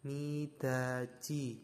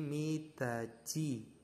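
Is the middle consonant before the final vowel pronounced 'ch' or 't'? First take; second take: ch; ch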